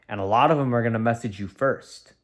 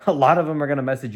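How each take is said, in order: First: Said in the usual way. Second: Quick laughing repeat, a bit louder. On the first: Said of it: "repeats it laughing". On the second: Shown as a demonstration.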